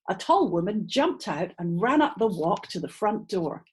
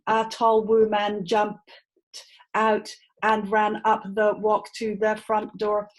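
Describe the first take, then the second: First: Unstressed vowels are reduced; pitch goes up and down. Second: Every syllable is said with a full, strong vowel. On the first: "I reduced down to a very weak sound" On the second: "with strong syllables"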